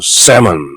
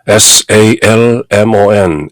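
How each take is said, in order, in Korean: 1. L 소리는 완전히 발음되지 않습니다. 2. L 소리는 중간에 발음됩니다. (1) "L을 완전히 무시하고 ... 이렇게 발음하는" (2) "salmon이 아니고"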